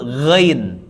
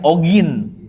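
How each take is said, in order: First: The name starts with a throaty gh consonant. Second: The name starts with a plain vowel sound. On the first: The speaker calls it right. "Padahal yang betul ghain" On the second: The speaker calls it wrong. "Kalau kita dulu bilangnya ogin"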